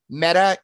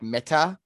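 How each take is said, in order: First: It is said the English way, like the brand. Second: It is said the Hebrew way, as the word for dead. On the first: It names the company. "It's obviously not pronounced that way" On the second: It means dead. "It's pronounced more like Meta"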